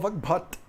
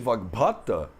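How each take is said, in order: First: The word ends without its final vowel. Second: The word ends with its final vowel pronounced. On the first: This is how it is said in everyday practice in India. "a gente fala Vagbhat" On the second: This is the theoretical textbook form. "Em vez de"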